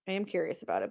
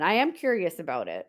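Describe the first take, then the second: First: "I am curious about it" said again much softer, under the breath; softer repeat. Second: Said in the usual way. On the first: Shown as a demonstration. Host musing to herself after viewers ask, said softly. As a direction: echo it quietly to herself.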